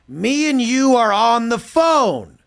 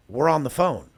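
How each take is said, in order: First: Higher, louder and slow, spelling it out; exasperated loud repeat. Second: Said in the usual way. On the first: Retold or imitated. Telling a confused client on the call, loud and slow. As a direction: drag each word out as if to a slow child. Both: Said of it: "I'm like".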